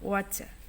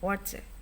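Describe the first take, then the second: First: It is said in an Australian accent. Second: The same.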